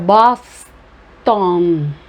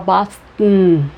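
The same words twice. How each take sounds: First: The second syllable has a full vowel. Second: The second syllable has a reduced schwa vowel. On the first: "Ao invés de falar Boston" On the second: "normalmente se fala Boston"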